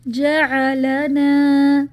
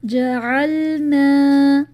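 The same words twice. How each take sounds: First: Slow loud جعلنا with a zabar on the lam, ja-a-la-na; wrong reading. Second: Very slow loud recited جعلنا with the lam silent; correct recitation. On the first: Teacher demonstrates the mistake, loud and slow. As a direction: add a vowel after the lam in جعلنا. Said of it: "زبر لگا دی". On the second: Teacher recites the correct word, loud and slow. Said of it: "اسی طرح". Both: Shown as a demonstration.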